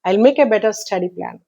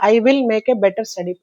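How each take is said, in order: First: The word 'will' is reduced to a weak form. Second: The word 'will' is pronounced fully and clearly. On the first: "అక్కడ వీక్ form, అది విల్ అనేది వీక్ form" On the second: "without stress following we read as"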